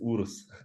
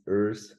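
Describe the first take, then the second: First: The name is said with a German pronunciation. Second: The name is said with an American English pronunciation. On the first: "in Germany it's Urs" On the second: "how the Americans and English speaking guys pronounce Urs"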